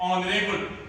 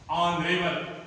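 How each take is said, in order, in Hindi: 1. यह शब्द स्वर ध्वनि से शुरू होता है। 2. यह शब्द स्वर ध्वनि से शुरू होता है।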